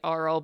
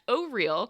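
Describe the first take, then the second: First: The name sounds like the word 'oral'. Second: The name sounds like the words 'oh real'. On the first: The speaker calls it wrong. "I was also pronouncing it Auril" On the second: The speaker calls it right. "but it is in fact O'Real"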